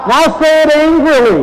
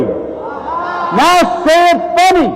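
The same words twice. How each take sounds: First: A higher, louder mock-angry line. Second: Much higher, slow and silly; mock funny. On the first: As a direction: pretend to be cross, hamming it up. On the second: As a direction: drag it out goofily for a laugh. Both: Shown as a demonstration.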